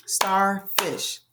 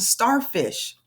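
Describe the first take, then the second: First: Starfish split into star, pause, fish; clapped-out syllables. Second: Said in the usual way. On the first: Shown as a demonstration. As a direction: say Starfish slowly, one beat per syllable. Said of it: "Two syllables". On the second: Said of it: "Can you clap out".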